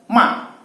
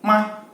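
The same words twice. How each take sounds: First: The pitch drops sharply and forcefully. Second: The syllable is short, light and unmarked. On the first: It means to scold. "nada keempat dia seperti menghentakkan ya, seakan-akan kita marah" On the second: It is a question particle. "nada kelima"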